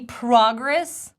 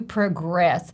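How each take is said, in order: First: The stress is on the first syllable. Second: The stress is on the second syllable. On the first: It is used as a noun. "it's a noun" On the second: It is used as a verb. "or a verb, to progress"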